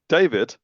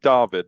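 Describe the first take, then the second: First: The name is said with English pronunciation. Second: The name is said with non-English pronunciation. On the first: The speaker calls it wrong. "is how the English would say it" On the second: The speaker calls it right. "So I'm going to go with"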